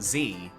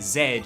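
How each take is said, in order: First: The letter is pronounced 'zee'. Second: The letter is pronounced 'zed'. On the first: This is the American way of saying it. "not Z" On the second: This is the British way of saying it. "in British English, we say Z"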